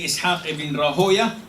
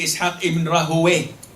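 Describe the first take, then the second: First: The name ends with an "oya" sound. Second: The name ends with an "away" sound. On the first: "You can say" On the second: "and you can say"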